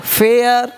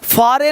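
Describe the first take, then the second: First: It is said like 'fair' with an air vowel. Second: It is said 'faa-re' with two syllables. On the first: The speaker calls it right. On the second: The speaker calls it wrong. "फारे नहीं"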